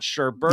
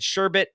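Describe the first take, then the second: First: It has two R sounds, as sherbert. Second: It has one R sound, as sherbet. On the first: The speaker calls it wrong. "not sherbet. If you say it with two, I will cut you" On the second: The speaker calls it right. "I said sherbet, There's one R in that word"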